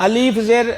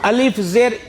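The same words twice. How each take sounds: The two takes are said the same way.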